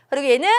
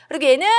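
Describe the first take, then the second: No difference in how they are said.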